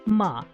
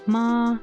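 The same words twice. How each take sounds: First: The pitch falls sharply from high to low. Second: The pitch stays high and level. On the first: "a fourth tone, which is a, a falling tone" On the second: "the first tone, which is uh like a flat, um a high tone"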